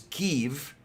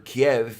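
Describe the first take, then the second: First: The name is said the Ukrainian way. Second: The name is said the older Russian-based way. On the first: This is the name the people themselves use. The speaker calls it right. "it is Kiev" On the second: This is the name imposed from outside. The speaker calls it wrong. "it is no longer Kiev"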